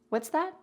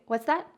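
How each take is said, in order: The two takes are said the same way.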